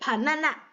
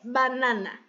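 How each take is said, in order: First: The word begins with an unvoiced P sound. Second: The word begins with a voiced B sound. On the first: The speaker calls it right. "vai ser panana. Panana, tem som de P" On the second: The speaker calls it wrong. "não vai ser banana"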